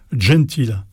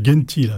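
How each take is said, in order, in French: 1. Le mot commence par un j doux. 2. Le mot commence par un g dur. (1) "Avec l'accent circonflexe, ça fait gentila" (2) "s'il n'y avait pas d'accent circonflexe, ça ferait gentila"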